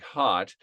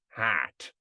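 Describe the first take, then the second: First: The vowel is a plain short O. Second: The vowel is fronted, sounding like hat. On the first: "just a plain short O, like hot" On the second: "it becomes hat"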